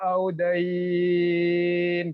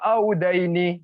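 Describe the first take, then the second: First: The word stops on its final consonant. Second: The word ends with an added final vowel. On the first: The speaker calls it right. "Cara bacanya biha audain" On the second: The speaker calls it wrong. "Jangan baca audaini, jangan begitu ya"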